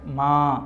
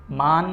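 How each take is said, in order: First: ماں ending in a nasal aa, no consonant n; nasalised vowel. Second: مان closed with a full, audible n; wrong clear n. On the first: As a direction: hide the n of ماں in the nose. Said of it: "نون غنہ". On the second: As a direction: sound the final n of مان as a consonant. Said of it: "مان نہیں کرے". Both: Shown as a demonstration.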